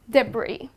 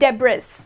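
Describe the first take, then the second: First: No s sound is heard at the end. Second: An s sound is heard at the end. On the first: The speaker calls it right. "here the letter S goes silent" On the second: The speaker calls it wrong. "And it's not debris"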